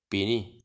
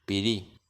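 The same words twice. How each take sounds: First: "Pirí" con la i nasal, casi como "pini"; pirí con vocal nasal. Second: "Pirí" con la i oral, sin nasalizar, con r simple; pirí con vocal oral. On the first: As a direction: di "Pirí" nasalizando la i, el aire por la nariz. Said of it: "Vocales nasales". ("Pirí" con i nasal, sonando a "pini") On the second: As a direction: di "Pirí" con la boca, sin pasar aire por la nariz. ("Pirí" con i oral y r suave) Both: Shown as a demonstration.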